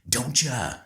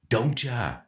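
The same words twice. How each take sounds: No difference in how they are said.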